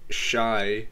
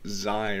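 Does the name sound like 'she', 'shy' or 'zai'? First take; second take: shy; zai. First: The name rhymes with 'sky', starting 'sh'. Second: The name rhymes with 'sky', starting 'z'. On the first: "It's not Shy" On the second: "or Zai or whatever"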